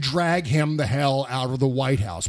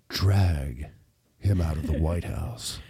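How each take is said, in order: First: It is said in a plain speaking voice. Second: It is said in a put-on sexy voice.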